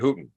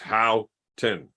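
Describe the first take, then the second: First: The first syllable sounds like 'hoo'. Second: The first syllable does not sound like 'hoo'. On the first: It is said this way for fun. "I like saying Hooten because it's fun" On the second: This is how the owner of the name says it. "it came back with two words"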